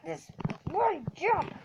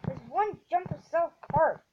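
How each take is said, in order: First: Exasperated. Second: Said in the usual way. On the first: Real, not acted. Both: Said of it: "So mad".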